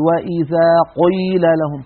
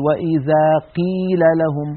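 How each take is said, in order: First: "قيل" بقاف مفخمة مبالغ فيها; "قيل" بقاف ثقيلة كأنها مضمومة; overly heavy qaf. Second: "قيل" بقاف مرققة تقترب من الكاف; "قيل" والقاف تكاد تصير كافا; qaf like kaf. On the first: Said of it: "يبالغ في تفخيم القاف المكسورة". (تفخيم ممجوج للقاف في "قيل") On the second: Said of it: "درجة تجعل الصوت كأنه كاف". (ترقيق مبالغ للقاف في "قيل" حتى تشبه الكاف) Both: Shown as a demonstration.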